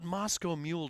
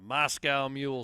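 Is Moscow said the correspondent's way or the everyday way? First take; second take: correspondent; everyday. First: Moscow is said the foreign correspondent's way. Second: Moscow is said the everyday common way. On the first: The speaker calls it wrong. "doesn't sound right" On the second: The speaker calls it right. "sounds right"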